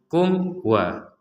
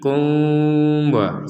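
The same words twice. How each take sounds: First: The sound before wa is said clearly. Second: The sound before wa is blurred and hidden. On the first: The speaker calls it right. "Kalau ini nggak ada samar sama sekali" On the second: The speaker calls it wrong. "Kalau disamarkan nanti kum wa seperti itu"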